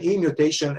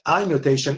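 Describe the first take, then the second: First: The first word sounds like 'ee'. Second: The first word sounds like 'eye'. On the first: The speaker calls it right. "it is better to pronounce it E mutation" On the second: The speaker calls it wrong. "It is a letter I"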